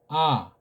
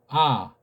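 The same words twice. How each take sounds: Both takes have the same delivery.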